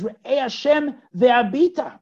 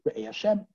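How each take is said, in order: First: "Re'eh Hashem ve'abita" slow, loud and high; emphatic call. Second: Said in the usual way. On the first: Shown as a demonstration. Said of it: "This is even more emphatic". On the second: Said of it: "This was just".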